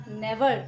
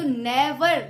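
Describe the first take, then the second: First: Said in the usual way. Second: never with ने punched louder; stress on first syllable. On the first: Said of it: "जो हम starting बोलते हैं". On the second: Shown as a demonstration. Teacher showing a trochee, never stressed hard on ने. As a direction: hit the ने of never hard, let वर drop. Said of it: "पहला ही जो sound".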